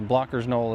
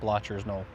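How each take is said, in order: First: The name has a 'k' sound in the middle. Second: The name has a 'ch' sound in the middle. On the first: The speaker calls it right. "is how it's supposed to be said" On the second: The speaker calls it wrong.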